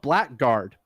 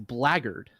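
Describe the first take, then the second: First: It is said as spelled, black plus guard. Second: It is said with a reduced middle, blag-gard. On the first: The speaker calls it wrong. "It's spelled blackguard" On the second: The speaker calls it right. "but it's blaggard"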